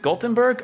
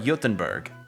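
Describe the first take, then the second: First: The name begins with a hard G sound. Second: The name begins with a Y-like sound. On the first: This is the English name. "I say Gothenburg because it starts with a G" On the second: This is the Swedish name. "is the G pronounced with a Y sound"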